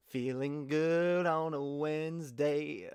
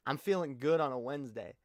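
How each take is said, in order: First: Slow, drawn-out sung line; playful unaccompanied singing. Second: Said in the usual way. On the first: Acted. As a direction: sing it with long held notes. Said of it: "I literally have that song stuck in my head".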